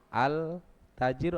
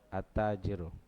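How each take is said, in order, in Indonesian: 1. L pada artikel diucapkan dengan jelas. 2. L menyatu dengan bunyi t setelahnya. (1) "Al tajiru atau at tajiru?" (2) "alif lam ketemu ta melebur ke ta lamnya"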